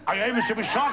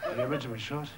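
First: Higher, projected recital voice; performed character question. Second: Lower, softer puzzled repeat; quiet aside. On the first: Acted. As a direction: deliver it out to the audience. Poem character's line, then repeated aside. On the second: Real, not acted. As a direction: drop out of the act and repeat it softly. Same line repeated as aside.

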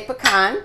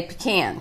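First: Pecan said as "puh-KAHN", stress on the second syllable with a broad ah; northern "puh-KAHN". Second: Pecan said as "PEE-can", stress on the first syllable with a flat a; southern "PEE-can". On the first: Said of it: "If you're from the north". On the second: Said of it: "and if you're from the south". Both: Shown as a demonstration.

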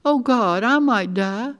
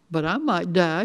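First: Higher, louder cry of dread; distressed outcry; panicked realization. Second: Mildly anxious blurt; understated fearful outburst. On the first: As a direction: let the fear burst out, pitch raised. Girl panics about dying. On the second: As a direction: let it slip out, a touch worried. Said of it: "she blurted out". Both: A narrator's reading.

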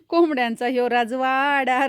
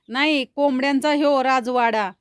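First: कोंबड्यांचा ह्यो राजवाडा said slowly, each word leaned on; slow emphasis. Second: Said in the usual way. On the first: Shown as a demonstration. Repeating her rhyme to the viewers, slow and emphatic.

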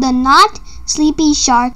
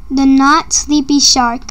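First: Said in the usual way. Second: The Not Sleepy Shark said slowly, stress on Not; slow title announcement. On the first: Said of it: "I'm gonna be reading a book called". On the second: A narrator's reading. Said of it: "reading a book called The Not Sleepy Shark".

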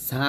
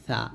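First: "সা" as an ordinary Bengali s; plain hissing s in "সা", the mistaken way; wrong Bengali sa. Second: "সা" as a thin th, tongue at front teeth; lisped, thin th sound in "সা"; correct Arabic tha. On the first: Teacher shows learners the mistake, wrong sa. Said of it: "সা কিন্তু না". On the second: Teacher corrects the Bengali reading, Arabic tha. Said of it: "এটা হচ্ছে সা". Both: Shown as a demonstration.

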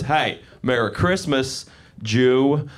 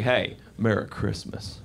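First: Slow greeting with the hidden jab spoken aloud; aggressive greeting. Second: Slow, low, pointed greeting, pause after "Hey"; veiled aggression. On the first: Southerner saying the unsaid part to him, pointedly aggressive. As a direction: land "Jew" after a pointed pause. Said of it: "what they weren't saying in that pause was". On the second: Southerner greeting him with a loaded pause, quietly aggressive. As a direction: hold back the hostility in a soft greeting. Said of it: "saying it kind of aggressive, and then there'd be a pause". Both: Retold or imitated.

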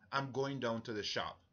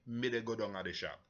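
First: Said in the usual way. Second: Lightly spoken in Jamaican Patois, "Me dey go" run together; a hint of Jamaican Patois, quick and rolled. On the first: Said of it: "So in English, we would say". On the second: Shown as a demonstration. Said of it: "in Patois, we would say".

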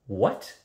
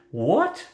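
First: A short question with a touch of anger; angry. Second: Loud, high-pitched outburst; roar. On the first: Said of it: "the anger in Kazul's voice". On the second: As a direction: roar it as a startled demand. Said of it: "Kazul roared". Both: A narrator's reading.

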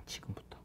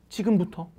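First: Unvoiced whisper of the word 지금부터; hushed 지금부터 as a secret cue. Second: Said in the usual way. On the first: Shown as a demonstration. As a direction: whisper 지금부터 close and low. Whispered cue before repeating it.

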